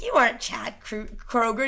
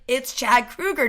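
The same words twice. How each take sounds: First: "Kroger" with a long OH first syllable; Kroger pronunciation. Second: "Kruger" louder and slower, with an OO; Kruger pronunciation. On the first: Man doubting the singer, "Kroger" as KROH-ger. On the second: Singer correcting a doubter, "Kruger" as KROO-ger. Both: Retold or imitated. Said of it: "argument over how to say".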